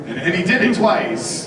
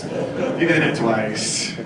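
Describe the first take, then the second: First: Said in the usual way. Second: "did" stressed, each word drawn out slowly; slow emphatic repeat. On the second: Shown as a demonstration. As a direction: spell it out slowly, leaning on "did".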